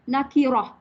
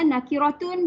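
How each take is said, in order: First: The word ends with a silenced final 'h'. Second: The word ends with a full 'tun' syllable. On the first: "matikan huruf akhir. Matikan ta" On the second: "Tak payah baca nakiratun"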